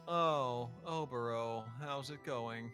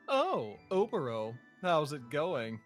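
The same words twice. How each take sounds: First: It is said in a depressed, downcast tone. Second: It is said in a smarmy, smug tone.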